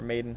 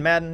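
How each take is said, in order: First: The name sounds like the word 'Maiden'. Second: The name sounds like the word 'Madden'. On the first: The player's actual name. The speaker calls it right. "I suppose would be the more proper way to say it" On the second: A joking nickname for the player. The speaker calls it wrong. "I just want to say John Madden"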